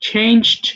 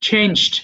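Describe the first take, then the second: The two takes are said the same way.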